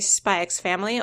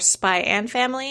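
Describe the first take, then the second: First: The X is said as the letter name. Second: The X is said as the word and. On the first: "I pronounce the X" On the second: "or Spy and Family"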